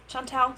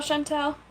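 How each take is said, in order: First: Chantal with a nasal French an, /ʃɑ̃ntɛl/; corrected French name. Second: Chantal with a flat English a, /ʃæntɛl/; her own accent. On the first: Shown as a demonstration. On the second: Real, not acted. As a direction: Chantal said the plain English way, short a. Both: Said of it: "my accent naturally goes for Chantal".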